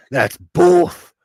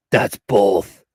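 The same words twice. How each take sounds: First: Said in the usual way. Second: Low menacing villain growl; deep theatrical bad guy; supervillain voice. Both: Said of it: "Let me get my supervillain voice".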